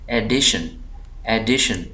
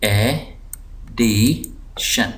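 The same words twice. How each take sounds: First: addition joined up, डि pressed; stress on DI. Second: addition very slow, three separate syllables. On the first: Teacher reading the word whole, stress on डि in addition. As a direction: lean on the middle syllable डि in addition. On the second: Teacher dividing the word for students, slow split syllables. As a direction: break addition into ए, डि, शन with pauses. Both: Shown as a demonstration. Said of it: "इस syllable को मैं दबाव दे रहा हूँ".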